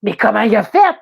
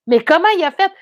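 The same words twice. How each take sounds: First: Baffled. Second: Second time higher and louder in disbelief; rising disbelief, pitched up; baffled at how the car got there; more baffled, pitched up. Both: Retold or imitated. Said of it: "Là, je fais".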